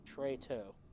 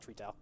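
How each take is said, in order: First: The first syllable sounds like 'tray'. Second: The first syllable sounds like 'tree'. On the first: The speaker calls it right. "I was saying it right to begin with" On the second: The speaker calls it wrong. "not Tree Toe"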